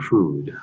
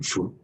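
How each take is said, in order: First: The final consonant is pronounced fully. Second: The final consonant is cut off. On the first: "Instead of saying food" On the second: "I say, want some food?"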